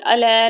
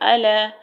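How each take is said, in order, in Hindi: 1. शब्द जल्दी और कटा हुआ बोला गया है। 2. शब्द धीरे और खींचकर बोला गया है। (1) "अला नहीं पढ़ना हमने" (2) "आराम से पढ़ेंगे"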